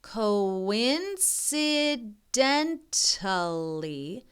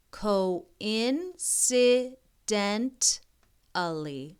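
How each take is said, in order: First: Very slow syllable by syllable; slow careful reading; sounding it out. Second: Very slow again, syllables apart; careful slow reading; sounding it out. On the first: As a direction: sound out a big word. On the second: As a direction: spell it with your voice. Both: Shown as a demonstration. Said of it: "this is a big wor".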